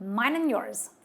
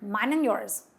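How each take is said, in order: No difference in how they are said.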